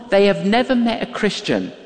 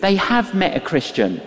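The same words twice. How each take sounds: First: "never" picked out as the key word; stress on never. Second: "have" stressed against the rest. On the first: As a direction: lean on "never" to set up the contrast. Two contrasting reasons, never versus have. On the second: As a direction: lean on "have" for the punchline, then fall away. Twist on the first reason. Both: Real, not acted.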